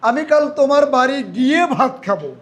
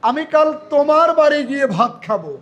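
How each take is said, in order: First: The word গিয়ে is stressed. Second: The word তোমার is stressed. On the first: The going there is what matters. "আমি ভার্বে জোর দিই" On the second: It is at this particular person's house. "এই যে তোমার, তার মানে এখানে তোমার কথাটাকে যুক্ত, মানে জোর দিচ্ছি"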